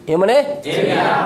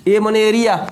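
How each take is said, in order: First: "ए माने area" said slowly, each word spelled out; slow stressed definition. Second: Said in the usual way. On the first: Shown as a demonstration. Teacher dictating to students, slow and deliberate.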